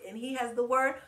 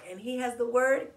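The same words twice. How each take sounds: The two takes are said the same way.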